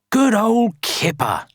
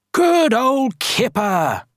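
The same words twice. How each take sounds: First: High, cheery storybook praise; praising. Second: High, slow, stretched cheer; calling out. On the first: Villagers praising Kipper for mending houses, praising. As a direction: praise him in a pitched-up voice. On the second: Everyone praising Kipper for moving the stone, calling out. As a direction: call it out across the village. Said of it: "everyone called". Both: A narrator's reading.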